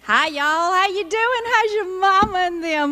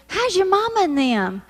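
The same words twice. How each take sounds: First: Higher, drawled "How's your mama and them"; Southern greeting in action. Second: Drawled Southern greeting, "How's your mama and them" stretched out. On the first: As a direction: sing out the greeting like a Southern hostess. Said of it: "this is how Southern speak goes in action". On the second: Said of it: "when we say". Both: Shown as a demonstration.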